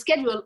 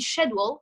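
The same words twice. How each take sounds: First: The word is said with an American pronunciation. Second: The word is said with a British pronunciation. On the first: "schedule in English, in American English" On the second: "schedule in British English"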